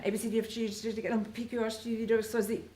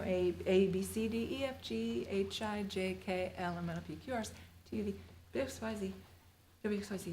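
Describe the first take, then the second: First: Fast alphabet. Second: Said in the usual way. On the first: Shown as a demonstration. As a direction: rattle the letters off quickly. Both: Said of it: "So now say it as fast as you can".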